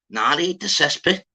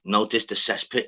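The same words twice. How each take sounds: First: Higher, louder retort, rising at the end; imitated disbelief. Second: Said in the usual way. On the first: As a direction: throw it back like you don't believe them. Acting out the confused man's reply.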